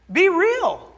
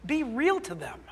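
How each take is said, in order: First: High, loud, punched command; emphatic shout. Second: Said in the usual way. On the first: Real, not acted. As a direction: call it out to the church. Pastor urging church to live faith.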